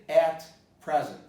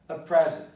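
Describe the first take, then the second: First: The word 'at' is fully pronounced and stressed. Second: The word 'at' is weak and reduced. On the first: The speaker calls it wrong. "I don't say at present" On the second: The speaker calls it right. "when I say at present"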